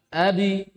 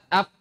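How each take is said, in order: First: The final b's release leans toward an i vowel. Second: The final b is cut off without any bounce. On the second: "tidak dibaca"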